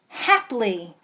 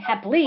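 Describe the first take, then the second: First: The stress is on the first syllable. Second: The stress is on the second syllable. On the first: "So you would lean on the hap"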